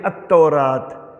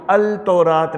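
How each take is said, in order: First: The L is silent; the T is doubled. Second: The L is clearly heard before the T. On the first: The speaker calls it right. "लाम नहीं बोला जाएगा, हम बोलेंगे अत्तौरात" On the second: The speaker calls it wrong. "हम इसको अल तौरात नहीं बोलेंगे"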